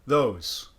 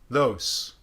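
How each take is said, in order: First: The word ends with a voiceless S sound. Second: The word ends with a voiceless S sound.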